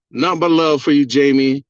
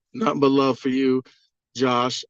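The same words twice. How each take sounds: First: Louder, hearty call-out; loud shout-out. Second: Said in the usual way. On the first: Real, not acted. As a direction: call it out to the host with gusto. Shout-out to host on livestream.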